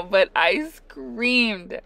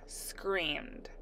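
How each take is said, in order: First: But I screamed, slow and loud; drawn-out emphasis. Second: Quiet hushed word. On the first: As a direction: stretch out but I screamed loudly. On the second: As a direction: softly drop the word screamed. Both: Retold or imitated.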